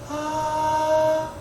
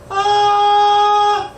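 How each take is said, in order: First: A weak, soft falsetto tone. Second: A clear, stronger, more focused high tone. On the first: "약하게 냈다가" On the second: "그 다음 선명하게"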